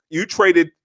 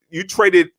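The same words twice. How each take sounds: The two takes are said the same way.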